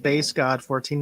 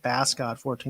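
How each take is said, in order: First: 'Bass' is said with a long vowel, rhyming with face. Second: 'Bass' is said with a short vowel, rhyming with mass. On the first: The name refers to the bass guitar. The speaker calls it right. "That is Bass God fourteen, ... like a, a bass guitar" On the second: The name would refer to the fish. The speaker calls it wrong. "not Bass God fourteen"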